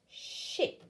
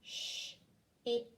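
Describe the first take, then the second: First: "Ship" said whole, sh still hissed; blended word. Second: "Sh-ip" split, sh hissed unvoiced; sounding out a word for a child; segmented sounding out. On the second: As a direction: pull the sounds apart slowly. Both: Shown as a demonstration. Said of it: "Let's do it together".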